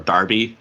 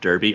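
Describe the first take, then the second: First: Derby is said with a British pronunciation. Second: Derby is said with an American pronunciation.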